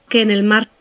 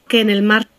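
No difference in how they are said.

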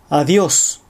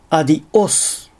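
First: The word flows smoothly with no glottal catch. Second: A glottal catch breaks the word in the middle. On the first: The speaker calls it right. "正しく" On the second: The speaker calls it wrong. "単語の途中に正門閉鎖を入れてしまう"

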